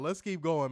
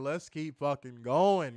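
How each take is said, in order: First: Said in the usual way. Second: Let's keep fucking going, slow, each word leaned on; slow emphatic push. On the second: Real, not acted. Host forcing himself past the laughing fit, slow emphatic. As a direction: drag out fucking going with mock insistence.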